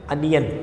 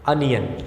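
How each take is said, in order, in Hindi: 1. पहला स्वर 'up' के 'u' जैसा सुनाई देता है। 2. पहला स्वर 'up' के 'u' जैसा सुनाई देता है।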